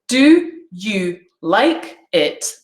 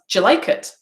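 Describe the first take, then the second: First: Do and you are said as separate words. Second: Do and you merge into a j sound.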